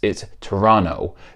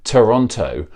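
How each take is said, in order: First: The second T is silent. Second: The second T is clearly pronounced. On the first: The speaker lives in or near the city. The speaker calls it right. "the second T is never pronounced" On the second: The speaker is not from the area. The speaker calls it wrong. "if you've never been to Southern Ontario, you probably pronounce it Toronto"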